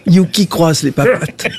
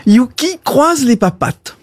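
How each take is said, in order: First: Said in the usual way. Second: Dog command. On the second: Acted. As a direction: order your dog to do a trick. Owner gives dog a command.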